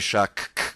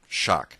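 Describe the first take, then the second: First: The c and k are sounded separately. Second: The ck is said as one k sound. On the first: The speaker calls it wrong. "you don't say shock" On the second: The speaker calls it right. "It's just one single sound"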